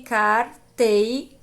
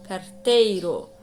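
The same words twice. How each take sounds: First: Carteiro broken as car... tei... ro; split into syllables. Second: Said in the usual way. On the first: Shown as a demonstration. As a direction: sound out carteiro slowly with pauses between car, tei and ro. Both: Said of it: "Quando eu for separar as sílabas".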